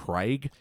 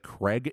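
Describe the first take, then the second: First: The name is said with an Australian accent. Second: The name is said with an American accent. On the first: "instead of Craig" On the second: "how Americans say Craig"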